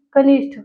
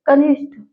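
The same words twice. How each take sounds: First: कनिष्ठ with an aspirated ठ ending; second look-alike form. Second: कनिष्ठ with a plain unaspirated ट ending; first look-alike form. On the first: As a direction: say कनिष्ठ as kanishṭh. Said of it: "एक जैसे लग रहा है". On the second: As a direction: say कनिष्ठ as kanishṭ, no puff. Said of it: "उच्चारण करते हो". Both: Shown as a demonstration.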